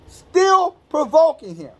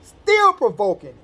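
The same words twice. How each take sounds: First: Preacher hammering home still provoking; emphatic repeat. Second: Said in the usual way. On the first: Shown as a demonstration. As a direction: STILL stressed, higher, slow and drawn out.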